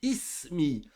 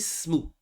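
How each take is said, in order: First: The word starts with a glottal stop and vowel. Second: The word starts directly without the initial vowel. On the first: The speaker calls it right. "J'ai dit ismi. Je l'ai prononcé" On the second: The speaker calls it wrong. "j'ai pas dit smou"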